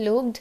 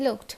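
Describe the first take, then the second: First: "looked" with a voiced GD; wrong D ending. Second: "looked" with a crisp KT; voiceless T closing "looked"; correct T ending. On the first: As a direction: say "looked" as "loogd". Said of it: "Not looked". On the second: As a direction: say "looked" as "lookt". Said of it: "it is looked". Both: Shown as a demonstration.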